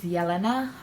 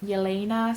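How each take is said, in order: First: The name is said with its native pronunciation. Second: The name is said with an Americanized pronunciation. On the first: The speaker calls it right. "tell your name as you say it, as people in your country say it" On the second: The speaker calls it wrong. "here some people cannot pronounce it, so they call me"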